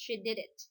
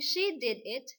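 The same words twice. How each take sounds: First: The words run together, with sounds linked. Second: Each word is said separately, without linking. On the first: "if we're going to apply blending in this sentence, we pronounce it as" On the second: "Instead of saying"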